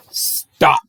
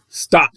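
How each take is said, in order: First: Breathy whispered Stop. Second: Said in the usual way. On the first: Acted. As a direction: hush it like a secret. Ram line whispered, then redone.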